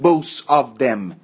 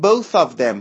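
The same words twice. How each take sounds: First: Both ends with an s sound. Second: Both ends with a soft th sound. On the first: The speaker calls it wrong. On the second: The speaker calls it right.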